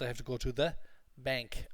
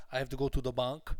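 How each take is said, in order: First: BANK with a nasal, flat "a" as in cat; pause, then a nasal "bank"; nasal English vowel. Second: BANK said with an open "ah", like "bonk"; wrong vowel. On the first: Teacher correcting the class's pronunciation, nasal bank. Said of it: "in English it's a very nasal sound". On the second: Teacher showing class the mistake, bank with "ah". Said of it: "And it's not". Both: Shown as a demonstration.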